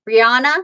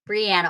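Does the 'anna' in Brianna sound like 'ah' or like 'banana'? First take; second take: ah; banana. First: The middle vowel is an open 'ah' sound. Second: The middle vowel sounds like in 'banana'. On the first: "the first way I said it, like a ah sound" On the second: "Like banana"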